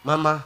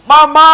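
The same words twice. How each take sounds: First: Low mournful husband's moan; hammed-up sob, pitched low; mock crying. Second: Very loud, high theatrical wail; hammed-up howl of grief; mock bawling. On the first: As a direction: put on a subdued, grieving husband's cry. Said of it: "Bojomu nangis". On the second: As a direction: cry out at full volume as a grieving husband. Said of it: "makin kenceng nangis si bojomu".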